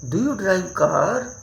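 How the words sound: It is said with a lively questioning tune. The speaker calls it right. "लगना चाहिए कि आप confirm कर रहे हैं"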